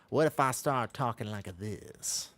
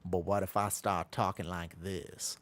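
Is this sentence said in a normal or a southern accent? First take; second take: southern; normal. First: It is said in a put-on southern American accent. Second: It is said in the speaker's normal accent.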